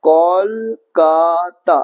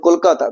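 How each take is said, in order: First: কলকাতা slowly split as kol-ka-ta; three separate, drawn-out beats on কলকাতা; syllable by syllable. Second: Said in the usual way. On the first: Shown as a demonstration. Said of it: "তিনটা দল". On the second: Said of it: "কলকাতা, তিনটা দল".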